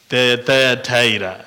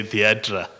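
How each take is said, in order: First: Thyatira tried out haltingly with a long "eye" in TIRA; alternative pronunciation. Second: Thyatira said simply as thee-AT-ra; Zimbabwean pronunciation. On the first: Preacher offers congregation another way to say it, Thyatira as thy-a-TIE-ra. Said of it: "I don't know how you pronounce it". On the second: Preacher shows how Zimbabweans simply say it, Thyatira as thee-AT-ra. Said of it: "in the Zimbabwean accent, we just simply say". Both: Shown as a demonstration.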